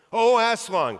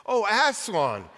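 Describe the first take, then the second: First: High, loud cry of joyful fright; startled glad cry; cried out. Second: High, slow joyful cry; cried out. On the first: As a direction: call out his name half scared, half glad. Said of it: "cried both the children". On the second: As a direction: call his name in relief and joy. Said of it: "cried Lucy". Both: A narrator's reading.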